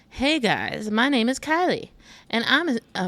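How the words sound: It is read in a mocking, put-on tone. The speaker calls it wrong.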